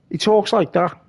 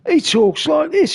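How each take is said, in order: First: Said in the usual way. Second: Higher put-on voice of a mate; impression of a friend. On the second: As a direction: say it in his friend's voice, pitched up.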